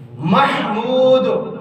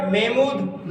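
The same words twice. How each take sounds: First: محمود very slowly, "MAH-mood"; correct pronunciation. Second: محمود as "MAY-mood", h dropped; common mispronunciation. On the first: Shown as a demonstration. Teacher introducing the right name, correct pronunciation. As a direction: clear h and long "ooo" in محمود. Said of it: "کیا نام ہے". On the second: Retold or imitated. Teacher mimicking someone giving their name, common mispronunciation. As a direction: imitate people softly saying محمود as "may-mood". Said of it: "لوگ کیا پڑھتے ہیں".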